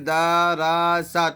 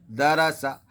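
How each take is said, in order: First: The first vowel is drawn out long. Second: The first vowel is kept short. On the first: The speaker calls it wrong. "ये पूरा का पूरा गलत हो जाएगा" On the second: The speaker calls it right. "सही क्या रहेगा"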